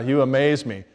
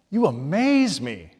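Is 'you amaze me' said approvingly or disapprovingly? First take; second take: disapprovingly; approvingly. First: It is said in a critical, disapproving tone. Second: It is said in a warm, approving tone. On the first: The listener is being criticized. "it could be in a bad way" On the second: The listener is being praised. "In a good way?"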